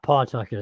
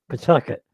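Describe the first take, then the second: First: The first vowel is fully pronounced. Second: The first vowel is dropped almost entirely. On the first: The speaker is not from the local area. The speaker calls it wrong. "it's not Pawtucket" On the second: The speaker is a local. The speaker calls it right. "P P apostrophe T U C"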